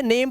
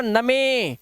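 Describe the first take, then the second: First: नेम as one syllable, ending on m; silent final e. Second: नमे as na-me, final e voiced; mock misreading नमे, drawn out in two syllables; mistaken sounded e. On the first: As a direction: say नेम with long a, no e at the end. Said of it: "इसे नेम पढ़ते हो". (नेम, आख़िर में 'ई' चुप) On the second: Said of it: "नहीं भाई इसे नेम पढ़ते हो". (नमे, हर अक्षर गलत ढंग से बोलते हुए) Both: Shown as a demonstration.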